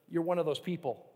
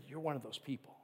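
First: Said in the usual way. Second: Softly retold. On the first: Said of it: "He goes". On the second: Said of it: "He said".

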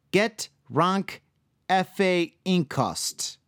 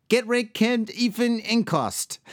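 First: Slow, halting go at a foreign name; careful pronunciation attempt. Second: Foreign name run together, higher pitched; attempt at saying fast. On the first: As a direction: sound out the name piece by piece. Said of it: "I'm gonna do my best". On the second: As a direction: stumble through the name in one go. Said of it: "I'll try to say it fast". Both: Shown as a demonstration.

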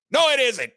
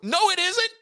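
First: Firm denial. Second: Sharp denial. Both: Real, not acted.

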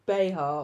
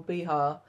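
First: Behar said as bay-HAR; first pronunciation. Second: Behar said as bee-HAR with an r; alternative pronunciation. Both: Shown as a demonstration. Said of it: "or Behar".

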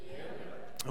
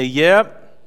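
First: Breathy unvoiced whisper; whispered yep. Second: Loud cheerful yep; congregation response. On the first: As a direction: answer it under your breath. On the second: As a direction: model the answer for them. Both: Shown as a demonstration.

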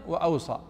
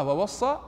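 First: "وأوصى" as wa-aw-saa, falling; single-s reading. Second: "ووصى" as wa-was-saa, raised at the end; doubled-s reading. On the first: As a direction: say "وأوصى" with aw and a light s. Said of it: "أبلغ من". («وأوصى» بتخفيف الصاد) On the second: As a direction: say "ووصى" with a firm double s, rising. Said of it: "يعني القراءة". («ووصى» بتشديد الصاد) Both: Shown as a demonstration.

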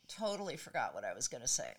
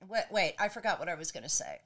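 First: Softer, voice fading out; trailing off. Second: Said in the usual way. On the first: Real, not acted. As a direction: let it trail away, lost in thought. Forgets mid-story, voice dropping away.

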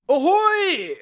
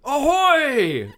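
First: High, far-carrying lookout call; shouting from crow's nest. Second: High lookout call down from above; shouting from crow's nest. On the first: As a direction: call it down from the mast. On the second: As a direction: hail the deck from the mast. Lookout calls again. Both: Acted.

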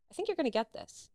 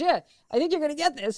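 First: Higher voice at normal volume; retold confiding verdict. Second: High, loud insistence, imitated; retold emphatic verdict. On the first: Casting woman's first verdict, retold. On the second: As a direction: repeat it emphatically, pitched up and loud. Casting woman repeats verdict more firmly.

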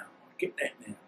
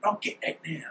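First: "I get that now" repeated almost under the breath, much softer; hushed repeat. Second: Said in the usual way. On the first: Real, not acted. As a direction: let "I get that now" sink into a near-whispered echo, much softer. Repeats phrase, second time hushed.

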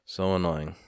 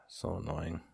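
First: Said in the usual way. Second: Much softer, under the breath; quiet grumble. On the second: Real, not acted. Grumbling to self about the undrinkable keg, very quiet. Grumbles to himself, then repeats it.

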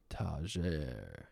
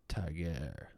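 First: Tager as "tah-ZHAIR"; French-sounding pronunciation. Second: Tager as "TAG-air", hard g; trying a pronunciation. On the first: Host trying out a model's surname, French-sounding pronunciation. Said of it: "that sounds French". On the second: Host sounding out a model's surname, trying a pronunciation. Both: Shown as a demonstration.

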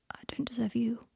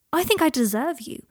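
First: Soft, hushed admission; quietly self-doubting reply. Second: Higher, louder, emphatic plea; impassioned declaration. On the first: A narrator's reading. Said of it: "He spoke so quietly". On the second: Acted. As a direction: declare it with raised voice and conviction.

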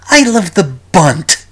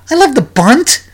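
First: A hint of a slow, doleful old governor saying I love the bunt; mock dour Cuomo. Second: Incredulous. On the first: Host mimicking Cuomo's documentary line, lightly doleful. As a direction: drag out I love the bunt like a glum politician. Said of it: "he says something completely ludicrous". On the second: Real, not acted. Incredulous repeat of the quote.

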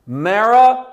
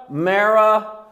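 First: The name Marah called out loud and high; emphatic name. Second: "Marah" said again, firm but less loud; repeated name. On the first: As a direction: call out "Marah" like a herald. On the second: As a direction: repeat "Marah" with steady weight. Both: Shown as a demonstration. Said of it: "three times in one sen-, in, in one verse".

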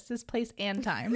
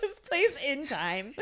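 First: Slow, weight on place. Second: Slow, laughing through "place"; laughing repeat. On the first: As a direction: lean on the word "place" slowly. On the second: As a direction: repeat it while cracking up. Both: Shown as a demonstration. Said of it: "I said it like this".

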